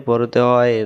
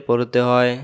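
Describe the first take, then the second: No difference in how they are said.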